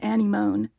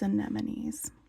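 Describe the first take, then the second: First: The word is said in a spelling-based pronunciation. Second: The word is said in its standard pronunciation. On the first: The speaker calls it wrong. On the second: The speaker calls it right.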